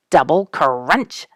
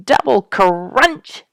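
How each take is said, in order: First: Slow imitated crunch; drawn-out crunch. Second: Slow, higher and louder imitated crunch. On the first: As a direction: stretch the word out like chewing. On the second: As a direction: push the crunch up and out. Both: A narrator's reading. Porcupines chewing, repeated.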